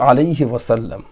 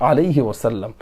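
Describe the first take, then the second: No difference in how they are said.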